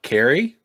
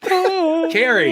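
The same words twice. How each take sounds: First: The voice rises at the end like a question. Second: The voice falls at the end like a statement.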